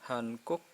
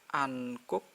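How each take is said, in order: First: The word begins with an h sound. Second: The word begins without an h sound. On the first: "boleh Hankook" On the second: "boleh an Ankook juga boleh"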